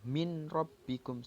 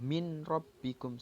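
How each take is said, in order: First: The n sound is heard clearly before the r. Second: The same.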